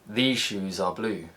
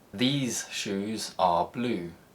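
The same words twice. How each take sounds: First: The z in 'these' turns into zh. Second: The z in 'these' stays a clear z.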